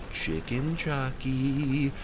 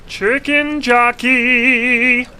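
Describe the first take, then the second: First: Soft slow. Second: High, slow, drawn-out yell of Chicken Jockey; shouted. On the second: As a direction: scream the name out long and loud. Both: Acted. Says the name twice differently.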